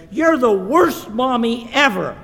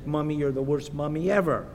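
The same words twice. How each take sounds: First: High, loud acted child's outburst; stomping child's tantrum. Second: Said in the usual way. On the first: Olivia stomps out on her mom, acted tantrum yell. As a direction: hurl it like a sulky six-year-old. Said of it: "she goes on stomping out of the kitchen". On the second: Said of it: "Just like Olivia says".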